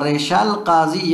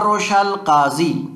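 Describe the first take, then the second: First: The first vowel is a front 'i' sound. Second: The first vowel is a rounded 'u' sound. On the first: "रेशा भी पढ़ा जा सकता है। व कसरी" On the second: "बेज़म में अव्वल ही, रा के यानी जमा के साथ भी पढ़ा जा सकता है"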